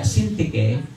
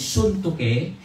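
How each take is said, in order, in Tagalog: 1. Ang unang patinig ay parang 'i' sa 'sin'. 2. Ang unang patinig ay parang 'oo' sa 'soon'. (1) "Or ini-English na natin" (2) "kasi yung tama ay pronounce as you"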